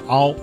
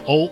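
First: The vowel glides from a to o. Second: The vowel glides from o to u. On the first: "一个是由啊过渡到了哦" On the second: "一个是由哦过渡到了呜"

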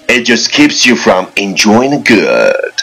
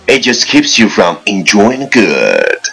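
No difference in how they are said.

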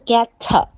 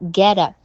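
First: The t is a clear, hard t sound. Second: The t is a quick flap, like a d. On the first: "我读的不是get a" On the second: "那你听我get a"

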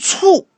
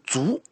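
First: The word is pronounced cù, with a falling tone. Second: The word is pronounced zú, with a rising tone. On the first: The death was sudden and without warning. The speaker calls it right. "如果你读卒，哎，史书中那就说的非常明确的" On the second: The death is recorded without any cause. The speaker calls it wrong. "如果读卒，这个事是有问题的，因为死亡缺少一个原因"

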